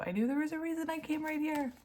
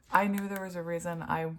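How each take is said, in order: First: Much higher, fast and amazed; thrilled. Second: Said in the usual way. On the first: Real, not acted. Reader telling viewers she was right to come. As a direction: sing it out, delighted. Repeated phrase, now thrilled.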